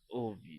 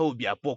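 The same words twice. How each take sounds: First: The name is said softly and tenderly. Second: The name is said harshly, like a battle cry. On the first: The speaker calls it right. "une voix un peu plus romantique" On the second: The speaker calls it wrong. "Pas Obiakpo comme si on allait à la guerre"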